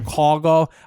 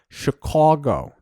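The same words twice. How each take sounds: First: It is said in a plain local way. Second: It is said in an exaggerated Chicago accent.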